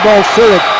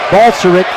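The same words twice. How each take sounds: First: The stress falls on a later syllable. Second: The stress falls on the first syllable. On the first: The speaker calls it wrong. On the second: The speaker calls it right.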